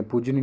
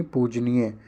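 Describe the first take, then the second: First: पूजनीय said quickly as "poojni"; wrong form. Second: पूजनीय said fully as "pooj-nee-ye"; long nee, full ending in पूजनीय; correct form. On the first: Teacher rejects a misspelling, shortened ending on पूजनीय. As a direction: run the end of पूजनीय together. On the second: Teacher gives the right form, full "nee-ye" in पूजनीय. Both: Shown as a demonstration. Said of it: "पूजनीय नहीं".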